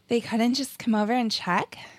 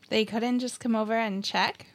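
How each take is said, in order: First: It is said in a breathy voice. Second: It is said in a plain voice.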